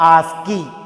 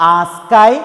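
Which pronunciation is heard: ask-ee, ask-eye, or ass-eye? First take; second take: ask-ee; ask-eye. First: The k is sounded and it ends in 'ee'. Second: The k is sounded and it ends in 'eye'. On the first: "ഏത് pronounce ചെയ്താലും correct ആണ്" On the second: "മൂന്ന് രീതിയിൽ pronunciation പറയാറുണ്ട്"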